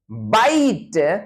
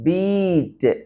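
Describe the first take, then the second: First: The vowel sounds like eye, as in 'my'. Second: The vowel sounds like ee, as in 'see'. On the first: This is the later, early modern pronunciation. "it is pronounced as bite in the early modern version" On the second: This is the older, Middle English pronunciation. "It was pronounced as beat"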